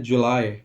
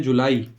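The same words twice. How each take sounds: First: July said "ju-LAI", ending in a diphthong like "lie"; English pronunciation. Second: जुलाई said "ju-laa-ee", ending in a clear long ee; Hindi pronunciation. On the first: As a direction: say जुलाई the English way, "joo-LYE". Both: Shown as a demonstration. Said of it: "Hindi में इसको बोलते हैं".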